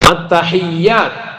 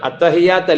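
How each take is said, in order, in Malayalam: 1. 'y' ശബ്ദം ഇരട്ടിച്ചതാണ്, നീട്ടിപ്പിടിക്കും. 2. 'y' ശബ്ദം ചെറുതാണ്, നീട്ടിപ്പിടിക്കില്ല. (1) "യാഇന് ഷദ്ദുണ്ട്" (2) "അത്തഹിയാത്ത് അല്ല"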